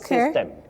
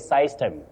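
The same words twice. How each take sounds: First: The first vowel is a short 'i' sound. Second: The first vowel is a gliding 'eye' sound. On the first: The speaker calls it right. "Just like in system" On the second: The speaker calls it wrong. "you don't say system"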